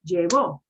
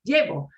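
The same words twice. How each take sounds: First: The stress is on the last syllable. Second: The stress is on the first syllable. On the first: Someone else took it in the past. "o con acento... that means I punch that" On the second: I am the one taking it now. "I'm not saying llevo, ye, yay, ye, llevo"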